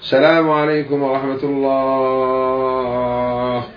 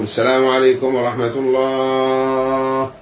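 The two takes are said the same way.

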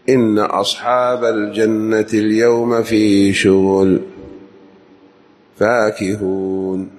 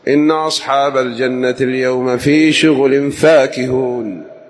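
First: There is a pause after the word شغل. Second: The phrase runs on without a pause after شغل. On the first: The blessed in paradise are busy, as if toiling. The speaker calls it wrong. "فالوقف هنا ليس بجيد. كان يقول" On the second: The blessed in paradise are happily occupied in delight. The speaker calls it right. "فحينئذ لابد أن تصل"

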